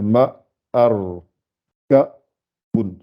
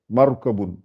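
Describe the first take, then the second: First: "ma, ar, ka, bun" with clear gaps between syllables; syllables separated. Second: Said in the usual way. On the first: Shown as a demonstration. Teacher separating each part so learners see, segmented syllables. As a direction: sound out "ma... ar... ka... bun" one piece at a time. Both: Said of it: "je les sépare chaque fois".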